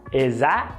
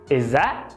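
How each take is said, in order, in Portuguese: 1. As consoantes se juntam num som curto e reduzido. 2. As consoantes se juntam num som curto e reduzido.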